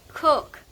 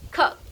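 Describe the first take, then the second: First: The vowel is long, as in 'food'. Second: The vowel is short, as in 'book'. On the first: The speaker calls it wrong. "so I thought it's like long, like cook" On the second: The speaker calls it right. "I didn't know that you say cook"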